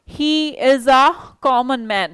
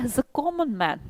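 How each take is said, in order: First: He and is are said as separate words. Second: He and is merge into one syllable. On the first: The speaker calls it wrong. "आप ऐसे नहीं बोलेंगे" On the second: The speaker calls it right. "आप बोलेंगे हिज a common man"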